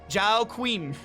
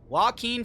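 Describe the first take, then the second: First: The name begins with a 'zh' sound. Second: The name begins with a 'w' sound. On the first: The speaker calls it wrong. "I just read it phonetically" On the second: The speaker calls it right. "Oh no, Joaquin is right"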